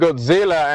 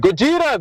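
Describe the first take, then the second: First: The name is said with a z and l sound. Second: The name is said with a j and r sound. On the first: The speaker calls it wrong. "because you were saying Godzilla" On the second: The speaker calls it right. "it's Gojira"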